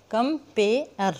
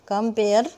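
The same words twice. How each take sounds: First: "compare" slowly split as कम-पे-अर; "compare" drawn out for counting syllables. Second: Said in the usual way. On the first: Shown as a demonstration. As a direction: break "compare" into three separate slow beats. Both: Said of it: "गिन के देखते हैं".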